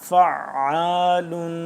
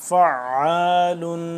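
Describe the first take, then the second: Both takes have the same delivery.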